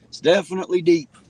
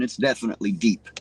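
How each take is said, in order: First: Higher and louder, leaning on deep; deep said high and loud with a falling end; emphatic repeat. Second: Said in the usual way. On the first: Shown as a demonstration. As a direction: say it again like you mean it.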